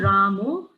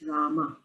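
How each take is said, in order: First: The name ends in an o vowel. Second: The name ends in an a vowel. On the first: The speaker calls it wrong. "So it's not Ramo" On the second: The speaker calls it right. "it's Rama. ... we put a little emphasis at the end"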